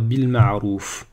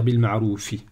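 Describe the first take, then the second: First: It ends on the f with no vowel. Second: It ends with an i vowel after f. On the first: The speaker calls it right. "si je m'arrête ici, je vais dire bil ma'rouf" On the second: The speaker calls it wrong. "Je ne vais pas dire bil ma'roufi"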